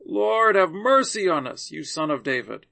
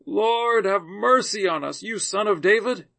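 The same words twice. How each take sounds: First: Crying out more. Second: Raised, louder pleading call, mildly acted; crying out. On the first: Blind men rebuked by the crowd, crying out even more. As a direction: hit "Lord" harder, a narrated insistent cry. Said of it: "they cried out even more". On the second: Two blind men calling to Jesus as he passes, crying out. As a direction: call out higher and louder, in a narrator's measured way. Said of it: "cried out". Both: A narrator's reading.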